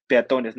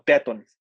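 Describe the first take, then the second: First: Said in the usual way. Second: "peatones" as a wrong form, stress moved off TO; mis-stress "peatones" on the A instead of TO; misplaced stress. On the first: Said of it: "en realidad decimos peatones". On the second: Shown as a demonstration. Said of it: "no peatones". ("peatones" mal pronunciado, con la fuerza en la A)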